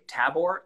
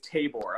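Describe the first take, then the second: First: The A is said as a soft vowel. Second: The A is said as a hard vowel. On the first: The speaker calls it wrong. "I think maybe soft A" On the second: The speaker calls it right. "People are saying it's Tabor"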